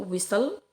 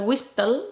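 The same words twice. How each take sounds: First: The T in the middle is silent. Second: The T in the middle is pronounced. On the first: The speaker calls it right. "T-nya itu tidak disebutkan" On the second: The speaker calls it wrong. "bukan whistle"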